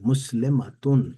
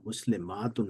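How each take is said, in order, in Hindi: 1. अंत से पहले का स्वर छोटा है। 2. अंत से पहले का स्वर लंबा है। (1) "मैं इस तरह पढ़ूंगा कि मुस्लिमातुन पढ़ूंगा" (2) "मुस्लिमातुन नहीं पढ़ूंगा"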